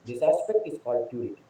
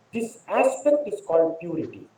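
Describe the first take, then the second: First: Much lower and softer repeat; hushed repetition for weight; soft echo. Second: Said in the usual way. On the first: Real, not acted. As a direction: let it sink in quietly. Quieter echo of the line.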